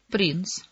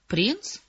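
First: Said in the usual way. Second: Higher, rising echo; intrigued question. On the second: A narrator's reading. Emma flirts with the Danish prince, intrigued. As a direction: ask it back with piqued interest.

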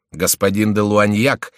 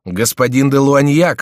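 First: Echoing repeat. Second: Loud, higher, drawn-out announcement; excited cry. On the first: Forty-five men repeating the name together, firm echo. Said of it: "дружно повторили сорок пять". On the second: Dozens of men crying out their captain's name, loud. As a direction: call the name out, raised and stretched. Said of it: "вскричали десятки голосов". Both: A narrator's reading.

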